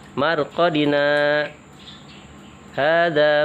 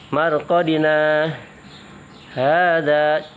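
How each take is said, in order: First: There is a brief stop after marqadina. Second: The words run on without a stop. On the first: The speaker calls it right. "berhenti sejenak sepanjang satu harokat atau e, dua ketukan dengan tidak bernapas" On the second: The speaker calls it wrong. "tidak dibaca marqadina hadza, tidak begitu ya"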